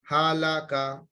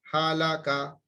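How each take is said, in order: No difference in how they are said.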